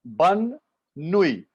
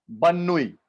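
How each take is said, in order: First: Said in the usual way. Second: "bonne nuit" said a final time with a long n in bonne; model repeat. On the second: Shown as a demonstration. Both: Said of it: "good night is bonne nuit".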